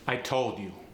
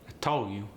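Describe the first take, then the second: First: The final d of told is pronounced. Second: The final d of told is dropped.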